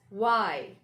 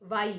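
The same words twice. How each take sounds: First: Y as drawn-out "wai", falling; w-initial Y; correct Y. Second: Y as "vai", with a v; v-initial Y; wrong Y. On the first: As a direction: round lips firmly for Y. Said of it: "It's Y". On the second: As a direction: say Y the mistaken way, "vai". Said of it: "We should not say Y". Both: Shown as a demonstration.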